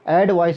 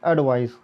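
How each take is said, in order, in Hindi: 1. पहला सिलेबल पूरा 'ed' वाला साउंड है। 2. पहला सिलेबल हल्का, कमज़ोर 'ad' वाला साउंड है। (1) "एडवाइस या एडवाइज नहीं कहना है" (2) "अड की आवाज़ निकलती है हल्का सा"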